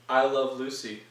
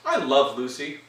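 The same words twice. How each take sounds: First: It is said flatly, without much energy. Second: It is said with lively, jivey energy.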